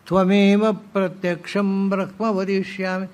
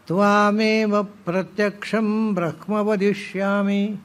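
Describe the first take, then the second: First: The first vowel of the first word is short. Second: The first vowel of the first word is long. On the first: This is the form people commonly say today. The speaker calls it wrong. "ಎಲ್ಲ ಹೇಳೋದು ಹೇಗೆ ಈಗ?" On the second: This is the form found in the scripture. The speaker calls it right. "ಅಂತಿರೋದು ವೇದದಲ್ಲಿ"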